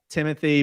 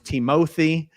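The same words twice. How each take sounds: First: The name is pronounced in the usual way. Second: The name is pronounced in a distorted way. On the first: The speaker calls it right. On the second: The speaker calls it wrong.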